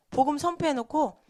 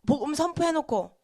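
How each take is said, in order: Both takes have the same delivery.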